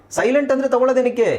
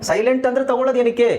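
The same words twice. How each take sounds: No difference in how they are said.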